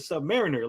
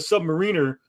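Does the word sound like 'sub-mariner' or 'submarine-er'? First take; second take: sub-mariner; submarine-er. First: It is said as 'sub' plus 'mariner'. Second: It is said like 'submarine' plus 'er'. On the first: The speaker calls it right. "it's the Submariner? Like, how do you not even recognize Mariner?" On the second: The speaker calls it wrong. "He goes"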